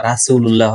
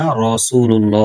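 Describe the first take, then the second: First: রাসূলুল্লাহ with a thin লাহ ending; wrong pronunciation. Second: রাসূলুল্লাহ slow with a full, rounded ল্লো; correct pronunciation. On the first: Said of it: "রাসূলুল্লাহ হবে না". (ভুল উচ্চারণ রাসূলুল্লাহ) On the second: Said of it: "রাসূলুল্লাহ হবে". (সঠিক উচ্চারণ রাসূলুল্লাহ) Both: Shown as a demonstration.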